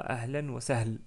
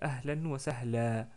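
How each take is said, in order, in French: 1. Le dernier mot se termine sur une consonne nue. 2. Le dernier mot se termine sur une voyelle allongée. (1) "On ne dit pas ahlan wa sahl" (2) "Donc on dit ahlan wa sahla"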